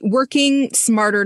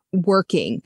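First: "working" lifted higher and drawn out slowly; stress on working. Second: Said in the usual way. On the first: Shown as a demonstration. Guest stressing "working" to contrast smarter, not harder. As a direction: lean hard on "working", slow and raised. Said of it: "not harder".

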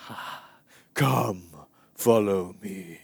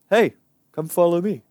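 First: Slow, airy, drawn-out mock-holy voice; ethereal movie Jesus. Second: Casual, higher, louder call; regular-guy Jesus. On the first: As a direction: float the words out dreamily, very slowly. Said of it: "Jesus is basically, like, floating along". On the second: Acted. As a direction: toss out a quick, everyday invitation. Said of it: "just some regular, normal".

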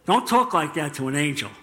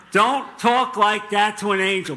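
First: Said in the usual way. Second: Raised, firmer warning; mock-serious, punched-up admonition; emphatic repeated warning. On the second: Real, not acted. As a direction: drive the warning home with a higher voice.

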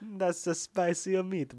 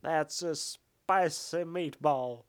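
First: Slow, drawn-out hammy Cage line; Nick Cage overacting. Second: Very slow, heavily hammed Cage delivery; Nick Cage overacting. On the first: Friend echoes the line, slow and hammed-up. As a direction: stretch every word like a ham actor. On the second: After being told the voice, overacts it even slower. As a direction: drag it out like an overacting star. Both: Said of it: "a Nick Cage overacting voice".

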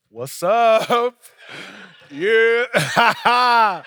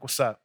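First: Loud, drawn-out mock-enthusiastic hail with a big laugh; overdone hearty greeting. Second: Said in the usual way. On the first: Pastor greeting the doorman he dislikes, overdone loud heartiness. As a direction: force the friendliness, loud and laughing.

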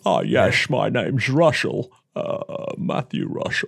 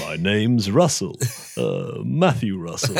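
First: A touch of a suave Bond hero, repeated; Roger Moore impression. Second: Slow, lightly voiced suave Bond; a hint of a suave Bond hero; Roger Moore impression. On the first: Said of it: "It was a very good Roger Moore". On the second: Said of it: "that was, uh, Roger Moore".

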